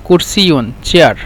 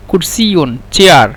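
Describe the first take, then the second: No difference in how they are said.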